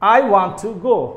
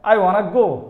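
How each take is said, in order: First: Want and to are said as separate words. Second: Want and to blend into one word, wanna.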